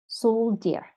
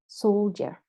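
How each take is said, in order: The two takes are said the same way.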